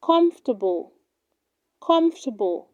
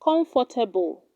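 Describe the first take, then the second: First: Comfortable squeezed to "KUMF-tuh-bul"; correct pronunciation. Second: Comfortable in four syllables, "com-for-ta-bul"; wrong pronunciation. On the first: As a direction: drop the "or" in comfortable, three syllables. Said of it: "It is pronounced". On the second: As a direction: sound out the "for" in comfortable. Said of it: "do not say comfortable". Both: Shown as a demonstration.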